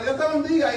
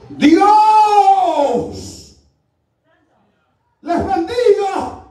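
First: Quiet, offhand routine blessing; by rote. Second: Huge drawn-out preacher's shout; booming blessing. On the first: Shown as a demonstration. Preacher showing how people bless by routine, said flatly by rote. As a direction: toss it off softly out of habit. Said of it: "Lo decimos por rutina". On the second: Retold or imitated. Visiting preacher greets the congregation, booming and drawn out. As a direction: cry out the first word, then stretch the blessing.

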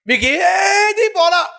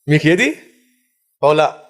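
First: Drawn-out high preaching cry. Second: Said in the usual way. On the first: Real, not acted. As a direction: wail the question slowly to the congregation. Preacher cries out rhetorical question.

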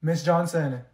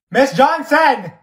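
First: Said in the usual way. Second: Slow, much louder and higher call of the name; loud drawn-out call. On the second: Acted. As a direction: drag out Johnson to get her attention. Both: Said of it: "I have to say your name three times".

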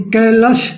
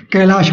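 First: कैलाश with short "a" in the last syllable, "kai-lash"; short-vowel mispronunciation. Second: कैलाश with a long "aa" in the last syllable, "kai-laash"; long final vowel. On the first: Teacher showing what people don't say, कैलाश with short last vowel. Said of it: "नहीं बोलते हैं". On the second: Teacher giving students the spoken name, कैलाश with long aa. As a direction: open out the aa in कैलाश. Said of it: "कैलाश बोलते हैं". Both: Shown as a demonstration.

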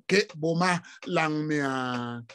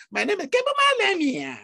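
First: "Ke Buma Langnia" said slow and low, as his father said it; native pronunciation. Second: "Ke Buma Langnia" said the European way, pitched higher; anglicized "Ke Buma Langnia", the way he refuses to say it; European-style pronunciation. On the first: To the bank clerk, his name said slowly the proper way. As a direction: draw out each syllable of "Ke Buma Langnia" in the African way. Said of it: "that's how my father called the name". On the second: To the bank clerk, his own name in a European accent. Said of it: "Why would I use a European accent to pronounce my name?".

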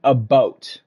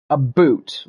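First: "boat" with a long o, for "about"; slow, clear "boat" as a Canadian "about". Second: "boot" with a long oo, for "about". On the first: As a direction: round the vowel of "boat". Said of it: "closer to saying a boat". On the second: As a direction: draw out the oo in "boot". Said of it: "the stereotype is that we say". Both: Shown as a demonstration.

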